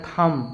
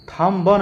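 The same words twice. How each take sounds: First: थम ending on M; correct pronunciation. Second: थम ब with an added "ba"; wrong pronunciation. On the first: Teacher gives the right reading, थम without B. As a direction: keep the B silent in थम. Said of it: "तो इसको क्या बोलना है". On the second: Teacher warns against misreading, थम ब with B voiced. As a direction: sound the B as its own syllable in थम ब. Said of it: "नहीं बोलेंगे". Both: Shown as a demonstration.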